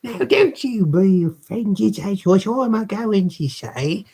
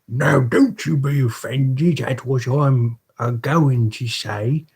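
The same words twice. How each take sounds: First: It is in the voice used for Missus Mann. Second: It is in the voice used for Mister Bumble.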